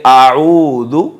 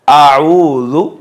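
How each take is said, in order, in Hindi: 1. बीच का व्यंजन नरम 'dh' आवाज़ है। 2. बीच का व्यंजन नरम 'dh' आवाज़ है।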